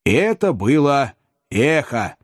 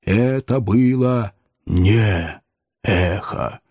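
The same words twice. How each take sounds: First: Slower, raised pitch on the quote; a touch of character, drawn out and higher; mildly acted self-reassurance; lightly voiced gravedigger. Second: Very slow, spaced-out spooky voice; ominous, measured correction; low goblin voice. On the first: Gabriel reassures himself in the story. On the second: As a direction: draw out each word as the unearthly stranger. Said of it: "послышался низкий голос". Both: A narrator's reading.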